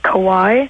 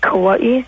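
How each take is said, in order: First: Said smoothly with no glottal stop break. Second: Said with a glottal stop break before the end. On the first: This is the mainland way of saying it. "you guys say" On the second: This is how local people say it. "but we say"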